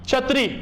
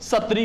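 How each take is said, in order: First: The word begins with a 'chh' sound. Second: The word begins with an 's' sound. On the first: "मैंने कहा छतरी" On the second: "इस बांगड़ी बोली के अंदर"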